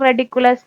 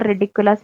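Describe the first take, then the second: First: The first syllable has an 'e' vowel, like 'red'. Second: The first syllable has an 'i' vowel, like 'rid'. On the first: The speaker calls it wrong. "നമ്മൾ ചിലപ്പോൾ പറയുമ്പോഴൊക്കെ റെഡിക്കുലസ് റെഡിക്കുലസ് എന്ന് അറിയാണ്ട് പറയാറുണ്ട്" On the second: The speaker calls it right. "റിഡിക്കുലസ് ആണ് ശരി"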